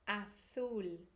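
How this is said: The z sounds like English th. "Agora na pronúncia da Espanha... colocar a língua entre os dentes"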